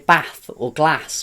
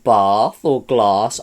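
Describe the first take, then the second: First: It is said in a different, put-on accent. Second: It is said in the speaker's home accent. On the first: "I like to say" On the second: "where I'm from, we would say"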